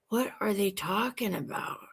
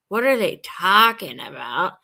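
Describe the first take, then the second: First: The question sounds genuinely puzzled and lost. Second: The question sounds scornful and dismissive. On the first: The speaker admits not understanding what was said. The speaker calls it right. "It's me going, I have no idea what they're talking about" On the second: The speaker looks down on what was said. The speaker calls it wrong.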